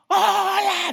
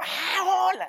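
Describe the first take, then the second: First: High, loud shouted greeting from afar; calling hello. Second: High, bright exclaimed hello; suddenly recognize a friend and answer; surprised recognition. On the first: Someone across the street calling out hello. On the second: Passer-by recognizing the friend who called out, surprised. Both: Retold or imitated.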